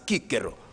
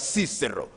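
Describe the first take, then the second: First: The name is given its Latin pronunciation. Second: The name is given its English pronunciation. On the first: "but properly in Latin as" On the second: "sometimes in English pronounced as"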